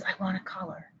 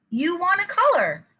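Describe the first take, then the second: First: Put-on very soft child's request; really soft voice. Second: Much higher, full-voiced echo to a child; parent's reflection. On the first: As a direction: say it timidly quiet, as a child. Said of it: "in a really soft voice". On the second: Shown as a demonstration. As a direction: repeat it back brightly, falling at the end. Parent echoes soft-spoken child.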